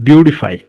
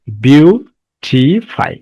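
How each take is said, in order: First: Said in the usual way. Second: "বিউটিফাই" very slowly, split as beau, ti, fy with clear gaps; syllable by syllable. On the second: Shown as a demonstration. Teacher showing students the syllables of "বিউটিফাই", saying each separately and slowly. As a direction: break "বিউটিফাই" into three drawn-out syllables: beau... ti... fy. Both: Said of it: "বিউটিফাই একাধিক syllable আছে".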